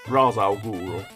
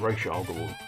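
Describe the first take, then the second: First: The first word sounds like 'Raz'. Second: The first word sounds like 'Reesh'. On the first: This is the older way of saying the name. "he was always just Raz" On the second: This is the newer way of saying the name. "then it became Rish Al Ghul"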